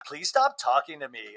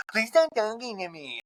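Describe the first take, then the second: First: Said in the usual way. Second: High, garbled mimicry of a rival; mocking. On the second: Housewife mimicking her rival's complaint, high mocking voice. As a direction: parrot it back in a silly high voice. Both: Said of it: "[name]'s mocking Lisa".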